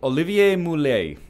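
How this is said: The name has a heavy, exaggerated French accent.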